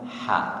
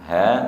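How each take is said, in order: First: It is a tense, raspy mid-throat h. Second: It is a soft, breathy low-throat h. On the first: The speaker calls it wrong. "bukan ha" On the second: The speaker calls it right.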